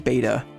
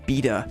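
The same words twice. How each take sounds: First: It is said with an American pronunciation. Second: It is said with a British pronunciation.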